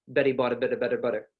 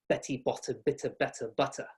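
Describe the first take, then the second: First: It has an American accent with soft D-like Ts. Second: It has a British accent with crisp T sounds.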